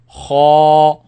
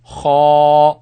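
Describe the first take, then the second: First: The sound is heavy and kept inside the mouth. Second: The same.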